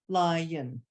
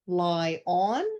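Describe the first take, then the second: First: The second syllable is said weakly and reduced. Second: The second syllable is said fully and strongly. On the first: The speaker calls it right. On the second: The speaker calls it wrong.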